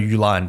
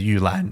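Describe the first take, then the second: First: The name is said with English sounds. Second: The name is said with Chinese sounds. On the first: "I call her Yulan" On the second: "her Chinese name is Yulan"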